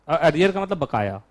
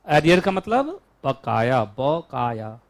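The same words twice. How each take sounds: First: Said in the usual way. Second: Slow, word by word; slow dictation. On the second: Shown as a demonstration. Teacher repeating the meaning for students to write, slowly. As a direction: spell it out slowly for note-taking. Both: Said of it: "लिखो।".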